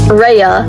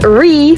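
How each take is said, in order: First: Two syllables, an ee sound then uh. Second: One syllable ending in an ee sound. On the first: "At first, I pronounced it as Rhea, like Rhea Sylvia" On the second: "Then I pronounced it as Ree, like B but Ree"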